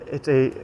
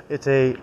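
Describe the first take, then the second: No difference in how they are said.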